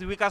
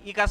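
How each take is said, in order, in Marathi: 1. हा शब्द v आवाजाने सुरू होतो. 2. हा शब्द थेट स्वराने सुरू होतो. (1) "आपल्या इथं बार्शीत विकास नाही" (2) "इकास म्हणतात"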